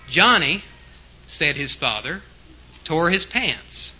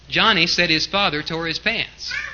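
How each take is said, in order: First: Pauses set off 'said his father' from the rest. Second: The whole sentence runs together without pauses.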